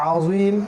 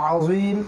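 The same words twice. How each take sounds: The two takes are said the same way.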